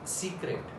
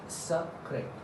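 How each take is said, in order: First: It is pronounced with English sounds. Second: It is pronounced with French sounds. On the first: "this is in English what we call secret" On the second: "How to pronounce it in French?"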